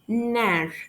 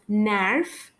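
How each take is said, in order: First: The final F sound is silent. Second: The final F sound is pronounced. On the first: The speaker calls it right. "We pronounce it as nar" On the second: The speaker calls it wrong. "We don't pronounce it as narf"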